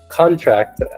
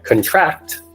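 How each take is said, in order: First: The stress is on the first syllable. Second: The stress is on the second syllable. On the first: It means a document that people sign. "has the emphasis placed on the front of this word" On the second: It means to catch an illness. "that means I get sick"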